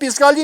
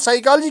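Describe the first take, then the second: First: The word starts with a p sound. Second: The word starts with an s sound. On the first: The speaker calls it wrong. "हम पिस्कालजी नहीं कहते" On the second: The speaker calls it right. "हम साइकालजी कहते हैं"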